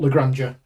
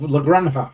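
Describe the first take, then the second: First: The name is said with English sounds. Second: The name is said with Spanish sounds. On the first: The speaker calls it wrong. "not La Granja" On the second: The speaker calls it right. "to pronounce it correctly"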